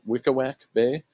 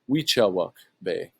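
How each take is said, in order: First: The name is said like 'Wickawack'. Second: The name is said like 'Weechawuk'. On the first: It is read off the map spelling. The speaker calls it wrong. "I had been calling this uh, Wickawack Bay, as it says here on the map, or how I'd pronounce it" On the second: It is the local pronunciation. The speaker calls it right. "That's actually pronounced Weechawuk Bay"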